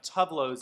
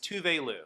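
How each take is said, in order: First: The name is said with two syllables. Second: The name is said with three syllables. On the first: The speaker calls it wrong. "we've all been saying Tuvlo forever" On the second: The speaker calls it right. "the correct pronunciation of Tuvlo's name, which is Tuvelu"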